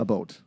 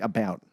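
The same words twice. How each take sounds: First: "a boat" with a Canadian long O; Canadian accent. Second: American "About" with an open OW; American accent. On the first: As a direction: show the Canadian vowel in "a boat". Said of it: "I notice the Canadian accent". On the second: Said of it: "the American would be like". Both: Shown as a demonstration.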